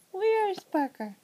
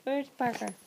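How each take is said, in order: First: Slow sing-song. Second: Said in the usual way. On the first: Real, not acted. Peekaboo with baby.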